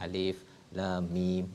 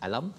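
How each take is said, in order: First: Each letter name is said separately. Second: The letters are joined into one short word. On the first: It is the opening letters of a surah. The speaker calls it right. "Alif dibaca seperti mana dimaklumkan Ustaz" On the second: It is an ordinary word in a verse. The speaker calls it wrong. "bukan alam"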